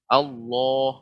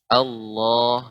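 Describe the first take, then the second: First: The vowel is said with pushed-out, rounded lips. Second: The vowel is said full and heavy, lips unpursed. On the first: The speaker calls it wrong. "Allah tidak monyong, bukan Allah" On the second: The speaker calls it right. "dibaca dengan tafkhim ya, tebal ya"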